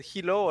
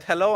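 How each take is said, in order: First: "hello" said as "hee-lo"; first vowel of "hello" turned to a long ee; mispronounced hello. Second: Said in the usual way. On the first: Shown as a demonstration. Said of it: "and I said "hello". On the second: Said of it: "it's like you said".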